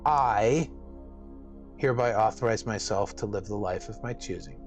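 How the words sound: The word "I" is stressed.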